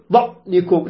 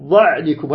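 First: "ظعنكم" with the ع snapped shut; faulty choked ع in "ظعنكم"; wrong clipped Ayn. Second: "ظعنكم" with ع neither dragged nor cut, pitched lower; balanced Ayn. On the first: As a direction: cut the ع in "ظعنكم" short with a hard stop. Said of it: "ولا تقل". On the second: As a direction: let the ع of "ظعنكم" flow briefly into the ن. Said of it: "هكذا". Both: Shown as a demonstration.

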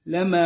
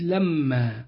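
First: "لما" بميم خفيفة غير مشددة; انطق "لما" بميم واحدة قصيرة دون إطالة; تخفيف الميم. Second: "لما" بميم مشددة مطولة; اضغط على ميم "لما" كأنها ميمان; تشديد الميم. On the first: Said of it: "بتخفيف ميم لما". ("لما" مخففة الميم، لَمَا) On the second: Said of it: "والثانية بتشديد لما". ("لما" مشددة الميم، لَمَّا) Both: Shown as a demonstration.

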